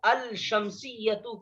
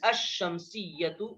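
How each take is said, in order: First: The L sound is pronounced before the sh. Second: The L is silent and the sh is doubled. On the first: The speaker calls it wrong. "अल शम्सियतु कहना गलत है" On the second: The speaker calls it right. "अश-शम्सियतु कहना सही है"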